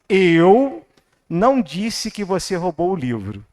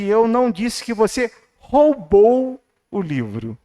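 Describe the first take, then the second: First: The word eu is stressed. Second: The word roubou is stressed.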